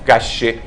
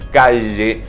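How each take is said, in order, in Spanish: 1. La consonante central es un sonido sordo, como la sh. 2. La consonante central es un sonido sonoro, parecido a la zh. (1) "No calle" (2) "debemos decir calle con sonido de la garganta"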